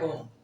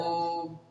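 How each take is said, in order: First: The O vowel is said short. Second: The O vowel is held three times longer. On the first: The speaker calls it wrong. "जैसे तुमने पढ़ दिया ओम, ये गलत होता है" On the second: The speaker calls it right. "ओ को समान रूप से तीन गुने समय तक कहना है"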